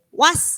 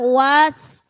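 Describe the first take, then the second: First: The vowel is kept short. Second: The vowel is drawn out long. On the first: The speaker calls it right. "langsung, gak ada panjang" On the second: The speaker calls it wrong. "Kadang kita"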